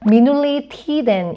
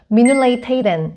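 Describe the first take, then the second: First: Both words use plain 'ee' vowels. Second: Both words use 'ay' vowel sounds. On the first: "공식적인 표현으로는" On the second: "프랑스 사람들은 미눌레이 테이덴 이런 식으로 표현을 합니다"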